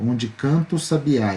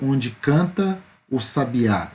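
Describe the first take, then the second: First: The words run together without pauses. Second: The words are separated by small pauses.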